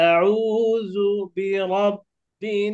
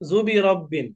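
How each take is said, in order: First: Each syllable is kept separate and full. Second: The syllables are run together and clipped. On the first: The speaker calls it right. "আলাদা আলাদা হতে হবে" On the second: The speaker calls it wrong. "জুবি রব্বিন বলি আমরা, জুবি রব্বিন না"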